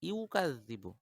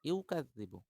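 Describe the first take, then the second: Both takes have the same delivery.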